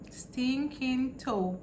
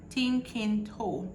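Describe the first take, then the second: First: The first word starts with an s sound. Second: The s is dropped, Jamaican style.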